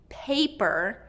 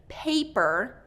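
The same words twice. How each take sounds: No difference in how they are said.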